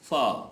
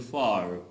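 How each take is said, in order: First: The final r is soft or silent. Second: The final r is clearly pronounced.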